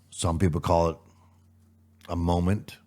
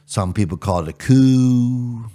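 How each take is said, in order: First: Said in the usual way. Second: Coup drawn out slow and louder; stress on coup. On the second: Shown as a demonstration. Host setting up a rhetorical contrast, coup stressed. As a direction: lean hard on the word coup, slowly.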